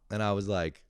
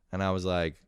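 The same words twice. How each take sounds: The two takes are said the same way.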